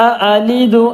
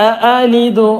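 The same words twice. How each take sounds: Both takes have the same delivery.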